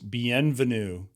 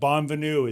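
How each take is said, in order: First: The first syllable is said like 'bien'. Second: The first syllable is said like 'bon'. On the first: The speaker calls it right. "It's Bienvenue" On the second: The speaker calls it wrong. "It's not Bonvenue"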